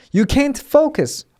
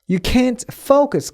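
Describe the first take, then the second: First: Can't hit hard, slow and high; stress on can't. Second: Said in the usual way. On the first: Shown as a demonstration. Teacher modelling the stress on can't. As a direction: put the weight on can't, not focus. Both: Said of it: "can't의 강세".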